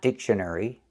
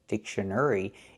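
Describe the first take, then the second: First: The third syllable has an "er" sound. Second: The third syllable has an "air" sound. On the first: The speaker calls it wrong. "not the er sound like in burger" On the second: The speaker calls it right. "We need the air sound like hair and chair"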